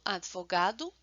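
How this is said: The consonants run together, European style. "essas consoantes se pronunciam de forma seguida"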